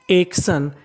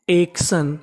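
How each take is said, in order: Both takes have the same delivery.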